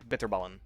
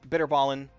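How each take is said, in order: First: The T in the middle is clearly pronounced. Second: The T in the middle is softened. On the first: "enunciate the T very clearly" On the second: "They just say kind of like bitterballen. Uh, that's close enough"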